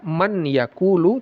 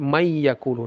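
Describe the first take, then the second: First: The n is pronounced clearly before the y. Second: The n merges into a doubled, nasalized y. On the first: The speaker calls it wrong. "tidak dibaca man yakulu" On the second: The speaker calls it right. "tapi mayyakulu"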